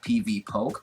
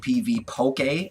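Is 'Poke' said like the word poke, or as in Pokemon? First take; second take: poke; Pokemon. First: The ending sounds like the plain word poke. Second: The ending sounds like the start of Pokemon. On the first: The speaker calls it wrong. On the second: The speaker calls it right.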